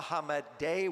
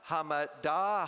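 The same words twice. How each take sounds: First: Hamadeh said HAH-muh-day, ending in ay; right pronunciation. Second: Hamada said HAH-muh-dah, ending in a open ah; wrong pronunciation. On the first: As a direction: Hamadeh with a final day sound, rising as a question. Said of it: "What is the correct pronunciation". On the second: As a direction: Hamada with a final ah sound, not ay. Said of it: "Is it pronounced Hamada". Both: Shown as a demonstration.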